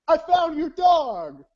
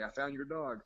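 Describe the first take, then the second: First: High, slow, loud announcement; jubilant yelling. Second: Said in the usual way. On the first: Retold or imitated. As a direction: holler it down the phone, stretched out. Prank caller acted out.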